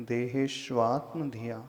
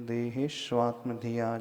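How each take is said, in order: Both takes have the same delivery.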